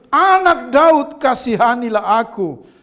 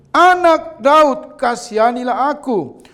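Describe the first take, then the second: No difference in how they are said.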